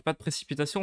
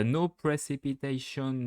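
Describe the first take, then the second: First: Said in the usual way. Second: A lightly put-on English accent, slowed. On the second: Shown as a demonstration. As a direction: say it like an English speaker, unhurried. (léger accent anglais, lent) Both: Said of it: "avec mon bel accent anglais".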